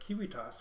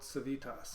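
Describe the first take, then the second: First: It begins with a hard K sound. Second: It begins with a soft S sound. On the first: "how I've been pronouncing the name of my company this entire time" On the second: "I read it as Build Civitas"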